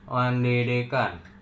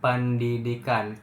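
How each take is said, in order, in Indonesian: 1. Bibir tidak menutup pada p. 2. Bibir menutup rapat pada p. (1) "tapi bibirnya nggak ngomong nggak apa, bibir atas dan bawah tidak saling bertemu" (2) "jadi bibir atas dan bawah harus bertemu"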